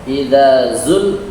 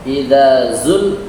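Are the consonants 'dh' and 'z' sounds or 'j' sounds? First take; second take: dh and z; dh and z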